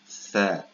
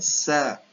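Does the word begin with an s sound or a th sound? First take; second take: th sound; s sound. First: It begins with a tongue-between-teeth th sound. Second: It begins with a hissing s sound. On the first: The speaker calls it right. "tapi sa ... hujung lidah di bawah uh, gigi atas" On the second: The speaker calls it wrong. "ni bukan sa"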